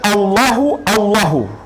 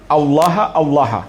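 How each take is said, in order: First: Each word ends with a short 'u' vowel. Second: Each word ends with a short 'a' vowel. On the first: It means someone still says there is no god but Allah. "dengan di dhammah" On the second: It means fear Allah. "dibaca dengan di fathah"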